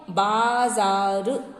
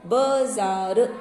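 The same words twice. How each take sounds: First: बाजार as "baaa-zaaar", first vowel held long; correct long vowel. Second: बाजार as "ba-zaa-ru", short first vowel, very slow; wrong short vowel. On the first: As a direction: stretch the first a of बाजार, very slowly. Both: Shown as a demonstration. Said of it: "ये wrong है".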